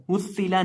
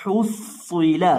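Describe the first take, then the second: First: हुस्सिला with a thin, plain s; wrong thin reading. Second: Slow हुस्सिला with a heavy, thickened s; correct thick reading. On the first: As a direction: say हुस्सिला briskly with a light s. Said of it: "हुस्सिला नहीं". ("ہسّلا" باریک سین کے ساتھ، غلط ادائیگی) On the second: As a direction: draw out the doubled emphatic s in हुस्सिला. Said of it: "उनको मोटा करके पढ़ते हैं". (حُصِّلَ موٹے صاد کے ساتھ ٹھہر کر) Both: Shown as a demonstration.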